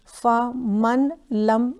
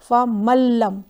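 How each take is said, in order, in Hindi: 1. न को ल से पहले अलग से बोला जाता है। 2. न पूरी तरह दोहरे ल में मिल जाता है। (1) "फमन लम नहीं पढ़ना है" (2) "नून को इग्नोर करना है और डायरेक्ट लाम को पढ़ना है"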